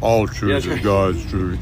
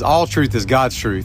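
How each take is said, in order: First: It is said in a deep bass voice. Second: It is said in an ordinary speaking voice.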